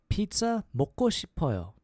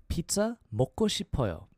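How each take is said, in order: Both takes have the same delivery.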